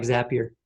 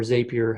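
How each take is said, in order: First: "Zapier" with a short a, rhyming with happier; alternative pronunciation. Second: "Zapier" with a long a, as ZAY-pee-er; alternative pronunciation. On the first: Presenter naming a tool for viewers, "Zapier" pronounced ZAP-ee-er. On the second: Presenter offering the other option, "Zapier" pronounced ZAY-pee-er. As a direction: say the first syllable of "Zapier" like "zay". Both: Shown as a demonstration. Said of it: "however you pronounce it".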